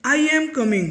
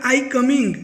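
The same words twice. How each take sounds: First: Am lightly stressed, said a touch higher; correct version. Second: Said in the usual way. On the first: Shown as a demonstration. Teacher giving students the right sentence, light stress on am. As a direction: correct grammar with am lightly leaned on. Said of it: "तो वो चलेगा". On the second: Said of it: "तो वो तो totally wrong है".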